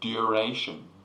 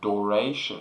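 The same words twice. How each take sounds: First: The first syllable sounds like 'dur'. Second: The first syllable sounds like 'door'. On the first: "Dur, a, shin" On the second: "Dor, a, shin. That you can say it like that"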